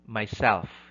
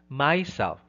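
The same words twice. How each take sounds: First: The stress is on the second syllable. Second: The stress is on the first syllable. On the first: The speaker calls it right. "it should be on the self" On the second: The speaker calls it wrong. "It's not myself or himself. No, that's wrong"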